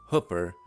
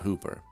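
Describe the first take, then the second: First: The vowel is short, as in book. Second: The vowel is long, as in boot. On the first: This is how the town's residents say it. "pronounce their name as Hooper ... like hooker with a P" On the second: This is how outsiders expect it to be said. "not Hooper ... double O says oo"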